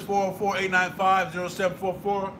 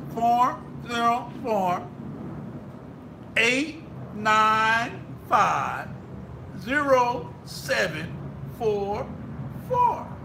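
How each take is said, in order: First: The number is said at normal speed. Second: The number is said very slowly.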